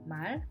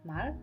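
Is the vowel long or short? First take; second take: long; short. First: The vowel is held slightly long. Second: The vowel is kept short. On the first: It means speech or an utterance. "ketika diucapkan dengan sedikit panjang" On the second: It means horse. "ketika dilafalkan dengan singkat"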